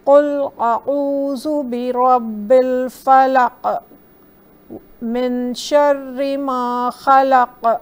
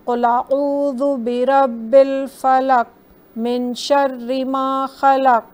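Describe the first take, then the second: First: The final q sounds end with a jerky echo. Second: The final q sounds stop flat without echo. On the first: The speaker calls it right. "थोड़ा सा जर्की या echoing sound दिया" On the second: The speaker calls it wrong. "हमने ऐसे नहीं पढ़ा"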